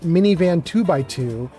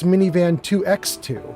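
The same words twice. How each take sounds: First: The middle symbol is read as 'by'. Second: The middle symbol is read as 'ex'. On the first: The speaker calls it wrong. "it's not Minivan two by two" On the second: The speaker calls it right. "She wants it to be X, not by"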